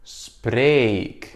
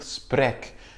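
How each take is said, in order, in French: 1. La voyelle se prononce longue. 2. La voyelle se prononce courte. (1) "pour qu'on garde ce E long" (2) "c'est faux parce qu'on va dire sprek"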